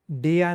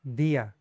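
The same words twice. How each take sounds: First: डिया with a hard English retroflex d; wrong, hard d. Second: दिया with the tongue on the teeth, soft d; soft dental d. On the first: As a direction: say डिया the English way to show the mistake. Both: Shown as a demonstration. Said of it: "इसको डिया नहीं".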